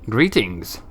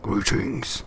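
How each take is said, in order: First: It is said in a plain voice. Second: It is said in the Nameless One's voice.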